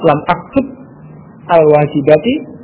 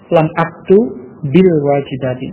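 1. Kata-katanya dibaca terpisah, kata demi kata. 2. Kata-katanya disambung dengan bunyi i tambahan.

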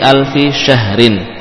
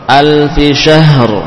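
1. Kata ini berakhir dengan vokal dan huruf n setelah r. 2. Kata ini berakhir tegas pada r mati.

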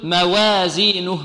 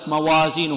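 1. الحركة بعد الواو تميل نحو الكسرة. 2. الواو وحركتها تُنطقان عاديتين وخفيفتين. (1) "يريد أن يرقق الواو فيقول موازينه ... لا هذه إمالة" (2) "هذا صحيح هكذا"

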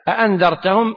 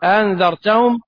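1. الهمزتان محققتان كلتاهما. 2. الهمزة الثانية مسهّلة، تُنطق خفيفة. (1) "بتحقيق الهمزتين" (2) "وتسهيلها"

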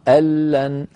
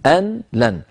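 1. تُدغم النون في اللام التي بعدها. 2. تُحفظ النون قبل اللام. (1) "في الوصل دائما مدغمة" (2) "الأصل في التقاء الكلمات أن تكون كل كلمة لوحدها"

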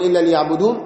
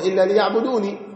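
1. تنتهي الكلمة بحرف النون دون حركة في آخرها. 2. تنتهي الكلمة بإضافة صوت العلة 'ee' في آخرها. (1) "في الوقف تقول إلا ليعبدون" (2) "وفي الوصل إلا ليعبدوني"

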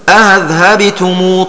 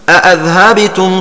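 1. الهمزة الثانية مسهلة، دون إدخال ألف بينهما. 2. الهمزة الثانية محققة، دون إدخال ألف بينهما. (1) "يسهل الثانية من غير إدخال" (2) "يحققها من غير إدخال"

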